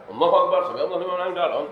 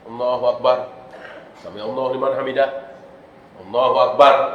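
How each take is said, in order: First: It is rushed, with no pause between phrases. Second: It is quick, with brief pauses between phrases.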